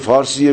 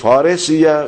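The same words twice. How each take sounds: First: The word is pronounced the way Persians say it. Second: The word is pronounced the way Arabs say it. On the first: The speaker is taken to be Persian. "اگه گفتن فارسیه میگن این فارسه" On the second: "اما اگه گفت فارسیه میگن این عربه ها"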